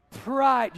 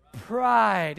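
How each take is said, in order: First: Second louder shout of pride; loud unison call. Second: Congregation shouting pride; loud unison call. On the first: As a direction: call it out together again. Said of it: "Say it again". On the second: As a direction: call the word out together. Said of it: "can you say it with me". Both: Real, not acted.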